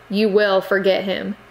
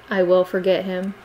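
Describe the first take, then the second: First: "You will forget him" pressed hard on You; firm aunt's command, "You" leaned on; stern command. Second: A niece submitting, even and humble; humble promise. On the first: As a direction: stress on "You", a glaring order. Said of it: "Sokka glared". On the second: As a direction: repeat it meekly, no push. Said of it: "in obedience". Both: Acted.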